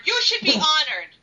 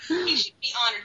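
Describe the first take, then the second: First: Higher-pitched mock scolding aimed straight at him; mildly indignant mock yell. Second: Said in the usual way. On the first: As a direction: raise your voice a little, as if telling him off. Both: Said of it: "yell at Tony Bedard".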